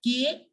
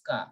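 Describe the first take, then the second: First: "K" said as kay; English "K" with an ay vowel; English letter K. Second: "K" said as kah; French "K" with an open ah; French letter K. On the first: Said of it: "K in English". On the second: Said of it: "we pronounce it as K". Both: Shown as a demonstration.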